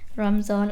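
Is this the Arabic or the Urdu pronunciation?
Urdu. It is said the shortened Urdu way. This is how Urdu speakers say the word. "in Urdu"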